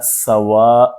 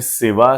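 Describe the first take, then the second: First: The vowel after the s is a. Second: The vowel after the s is i. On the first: This is a less common pronunciation. "सीन की फतहा और अलिफ की मद के साथ सवा भी बोलते हैं" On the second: This is the most common pronunciation. "सबसे गालिब तलफ़ुज़ है सीन की कसरा से"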